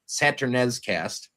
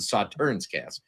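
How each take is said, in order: First: The word starts like 'Saturn' and ends in 'ez'. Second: The word starts like 'saw' and ends in 'tern'. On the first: It is a joke pronunciation heard on a live stream. "I'm going to say it because it's funny to me" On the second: It is the usual name of the wine. "that's the Sauternes cast"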